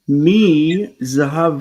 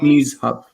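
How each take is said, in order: First: It is said as three syllables, with zahav. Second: It is said as two syllables, with zh run together. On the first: The speaker calls it right. "you need to separate from" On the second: The speaker calls it wrong. "Not mizhav"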